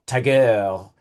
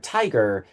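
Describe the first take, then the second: First: "tiger" with the weight on its second syllable; stress on second syllable. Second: Said in the usual way. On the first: Shown as a demonstration. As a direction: say "tiger" as ti-GER, like a silly French accent. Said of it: "If you emphasize the second syllable". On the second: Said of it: "emphasize the first syllable".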